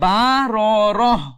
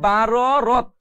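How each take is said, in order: First: The word ends with an h sound. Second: The word ends with a t sound. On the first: The speaker calls it right. "পড়তে হবে বা র রহ" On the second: The speaker calls it wrong. "বা র রত পড়া যাবে না"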